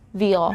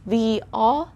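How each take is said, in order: First: A Y glide joins the two words. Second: The words are kept separate, with no glide.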